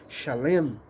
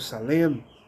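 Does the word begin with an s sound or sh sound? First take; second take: sh; s. First: The word begins with a sh sound. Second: The word begins with an s sound. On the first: "ele pode ter som de X" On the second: "ou de S"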